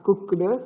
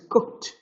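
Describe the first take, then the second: First: The ending sounds like a d sound. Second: The ending sounds like a t sound. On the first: The speaker calls it wrong. "it is not cooked" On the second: The speaker calls it right. "it is cooked"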